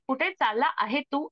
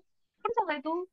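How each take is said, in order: First: The verb is said as two full words. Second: The verb is contracted into one short word. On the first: The speaker calls it wrong. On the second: The speaker calls it right.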